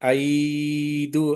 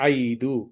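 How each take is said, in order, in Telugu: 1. మొదటి అచ్చును దీర్ఘంగా సాగదీస్తారు. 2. మొదటి అచ్చును హ్రస్వంగా, త్వరగా అంటారు. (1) "ఇక్కడ దీర్ఘం తీస్తున్నామా?" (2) "త్వరగా చదువుతున్నాం"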